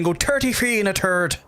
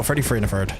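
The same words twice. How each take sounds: First: "thirty-three" said with a clear th and a raised pitch; "thirty-three and a third" in a careful standard accent, pitched higher; standard pronunciation. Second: "Freddy Free and a third" said with f for th, as in Belfast; "Freddy Free" in a natural Belfast accent, th turned to f; Belfast pronunciation. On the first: Streamer to chat, contrasting standard "thirty-three" said higher. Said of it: "Did you think I was gonna do, like, the double thing".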